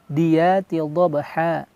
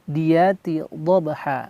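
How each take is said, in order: No difference in how they are said.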